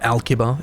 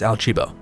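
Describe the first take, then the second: First: The middle consonant sounds like a hard k. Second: The middle consonant sounds like ch. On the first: The speaker calls it wrong. "It's not Alkiba" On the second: The speaker calls it right. "it's Alchiba"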